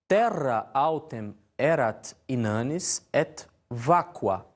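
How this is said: It is said in Italian-style church Latin pronunciation. "na pronúncia eclesiástica, ou seja, a maneira italiana"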